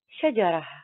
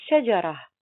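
First: The word ends in an h sound before a pause. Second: The word ends in an h sound before a pause.

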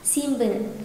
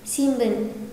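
No difference in how they are said.

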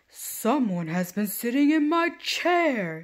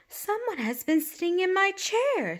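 First: It is said in a great big voice. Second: It is said in a middle-sized voice.

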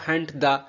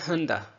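First: The t at the end of hunt is pronounced. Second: The t at the end of hunt is dropped. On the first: "अगर लिखा हो हंट the" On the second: "तो फिर हम बोलेंगे हन the"

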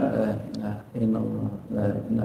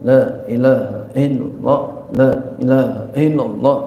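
First: It is said quietly, under the breath. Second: It is said loudly and out aloud.

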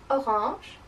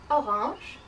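No difference in how they are said.

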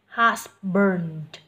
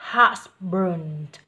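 No difference in how they are said.

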